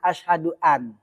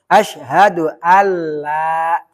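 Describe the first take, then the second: First: The n is pronounced separately before the l. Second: The n merges into a doubled l sound. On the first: The speaker calls it wrong. "orang kada ngaji tajwid pasti bacanya" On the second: The speaker calls it right. "Jadi dibaca alla"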